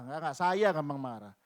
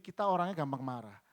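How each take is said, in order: First: "saya" punched louder as a correction; stress on SAYA. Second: Said in the usual way. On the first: Shown as a demonstration. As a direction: hit "saya" hard, owning the fault. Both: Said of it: "Bukan kita lah".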